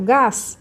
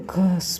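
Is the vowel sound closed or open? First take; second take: open; closed. First: The vowel is open and loud. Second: The vowel is closed and held inward. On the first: The speaker calls it right. "eu falo alto" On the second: The speaker calls it wrong. "eu falo gás para dentro, assim. Não"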